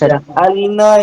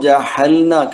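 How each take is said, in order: First: The middle consonant is a tight throaty 'ain'. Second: The middle consonant is a breathy 'h' sound. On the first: The speaker calls it right. "ഈ ഐൻ നമ്മള് ഹൽക്കിലെ തൊണ്ടയുടെ മധ്യഭാഗത്ത് നിന്ന് വരുന്ന അക്ഷരമാണ്" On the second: The speaker calls it wrong. "ജഹ എന്ന് പറഞ്ഞു, ഹ പറഞ്ഞിരുന്നു. ഹ അല്ല"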